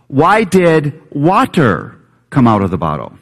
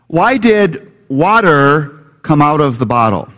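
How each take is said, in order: First: The word water is strongly stressed. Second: The word water carries no special stress.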